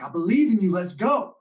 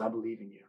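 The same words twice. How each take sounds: First: Louder, higher "believe", pumped up; hyped encouragement. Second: A soft hint of a mentor's murmur; quiet encouragement. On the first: Retold or imitated. Senior hypes the shaking sophomore, loud and high. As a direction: fire him up for the last rep. Spotter hyping lifter on rep four. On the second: Teammate quietly reassures the scared sophomore, soft. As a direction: say "believe" low and gentle, almost under breath.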